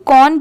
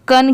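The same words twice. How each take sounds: First: कौन with an open "kon" vowel; rounded o sound in कौन; wrong pronunciation. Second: कन with a short "uh", "kun"; short neutral vowel in कन; correct pronunciation. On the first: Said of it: "कौन की नहीं आएगी". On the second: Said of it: "कन की आएगी". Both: Shown as a demonstration.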